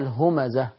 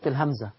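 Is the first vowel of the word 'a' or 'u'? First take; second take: u; a. First: The word is said as humaza, with u vowels. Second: The word is said like the letter name hamza. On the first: The speaker calls it right. "اسمها الهمزة من الهمز واللمز" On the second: The speaker calls it wrong. "للأسف بنقول اسمها غلط"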